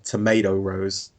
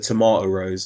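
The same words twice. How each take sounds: First: Tomato is said with an American pronunciation. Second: Tomato is said with a British pronunciation.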